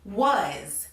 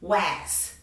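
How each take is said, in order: First: The vowel is an uh; it ends in z. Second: The vowel is a short a; it ends in s. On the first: The speaker calls it right. "in actuality, the word is pronounced was" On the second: The speaker calls it wrong. "they would probably say was, was"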